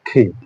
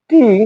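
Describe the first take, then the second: First: The t sound has a strong puff of air. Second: The t sound has no puff of air. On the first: The speaker calls it right. "কিন্তু এখন থেকে এর উচ্চারণ হবে ঠি" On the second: The speaker calls it wrong. "আগে আমরা আ এ টি এ এই ধরনের উচ্চারণ করতাম"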